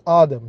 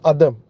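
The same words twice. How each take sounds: First: The first vowel is drawn out long. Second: The first vowel is short. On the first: The speaker calls it right. "you have to drag the alif" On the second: The speaker calls it wrong. "it is not Adam"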